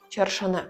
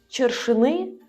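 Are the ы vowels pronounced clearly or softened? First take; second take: softened; clear. First: The ы vowels are softened and less distinct. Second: The ы vowels are pronounced fully and clearly. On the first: The speaker calls it right. "«ы» мы стараемся не произносить так явно" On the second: The speaker calls it wrong. "Сказать чыршыны будет неверно"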